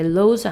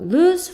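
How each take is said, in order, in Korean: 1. 모음은 nose처럼 'oh'로 발음해요. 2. 모음은 moon처럼 'oo'로 발음해요. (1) "딱 보면은 lose 같잖아요. 근데 lose 아니고" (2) "우 소리 나니까 / lose라고 발음을 한다"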